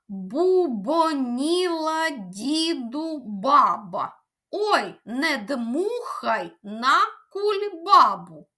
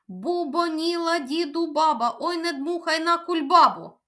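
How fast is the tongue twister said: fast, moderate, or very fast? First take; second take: moderate; very fast. First: It is said at a moderate pace. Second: It is said at a very fast pace.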